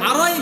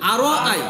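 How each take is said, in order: First: The two vowel sounds run together as one. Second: The two vowel sounds are clearly kept apart. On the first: The speaker calls it wrong. "আরোই বলবেন না" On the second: The speaker calls it right. "আরো আই বলেন"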